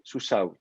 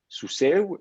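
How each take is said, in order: First: The word ends in an o-like vowel. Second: The word ends in an e-like vowel. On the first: It is the form the Masoretes inherited. "la triphtongue aiue va être contracté en we, et donc ça vous fait sous sao" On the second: It is the form used in some other circles. "si le he tombe, ça fait sous seu"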